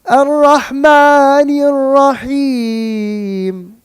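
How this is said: The melody moves downward, sounding sad. It sounds sad, as if something is wrong. The speaker calls it wrong. "I went downwards and my voice gave a complete different connotation"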